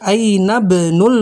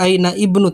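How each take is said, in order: First: The i vowel is dropped, linking as ainabnu. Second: The i vowel is pronounced, as aina ibnu. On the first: The speaker calls it right. "tapi aina benul mudiri" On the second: The speaker calls it wrong. "Tidak dibaca aina ibnu"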